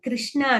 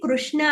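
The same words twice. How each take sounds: First: The first syllable sounds like kri. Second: The first syllable sounds like kru. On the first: The speaker calls it wrong. "కృష్ణ అనకూడదు" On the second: The speaker calls it right. "అది కృష్ణ అనాలి ... క్రూ అనే sound రావాలి"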